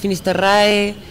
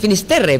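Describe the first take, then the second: First: The name ends in an 'rae' sound. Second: The name ends in an 're' sound. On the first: Others say it this way. "otros Finisterrae" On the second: Still others say it this way. "Y otros dicen Finisterre"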